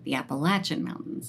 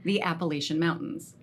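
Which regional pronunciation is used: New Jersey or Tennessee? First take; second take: Tennessee; New Jersey. First: It is said with a Tennessee pronunciation. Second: It is said with a New Jersey pronunciation. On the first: "when you're from Tennessee, you say" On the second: "Here in the Dirty Jers, we say"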